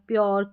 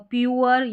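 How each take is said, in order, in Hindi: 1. यह शब्द एक ही फिसलता हुआ अक्षर है, 'pyor'। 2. यह शब्द दो अक्षरों में बँटता है, 'pyoo-er'। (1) "इस तरीके से प्रोनाउंस करते हैं तो सही" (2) "प्यूअर या श्यूअर या एश्योर नहीं"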